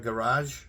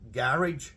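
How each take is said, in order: First: It is said with a French-sounding pronunciation. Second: It is said with a plain English pronunciation.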